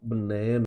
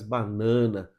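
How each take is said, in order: First: The unstressed vowels are reduced and murmured. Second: All vowels are pronounced full and clear. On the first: "a sílaba átona ela é murmurada" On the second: "Nós falamos com vontade todas as vogais"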